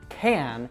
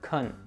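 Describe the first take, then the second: First: The word has a full, clear vowel. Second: The word has a weak schwa vowel. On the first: "a strong can" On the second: "we'll usually reduce it to kun"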